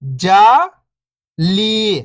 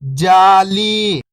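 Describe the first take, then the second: First: First syllable lifting, pause, second falling. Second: Whole word, level then falling at the end; syllables blended. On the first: Teacher breaking a word down for beginning readers, syllable by syllable. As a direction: sound out each syllable alone, long and separated. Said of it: "एक अक्षर का उच्चारण करके". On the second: Teacher showing beginners the joined word, syllables blended. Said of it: "तो मिलके बन जाएगा". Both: Shown as a demonstration.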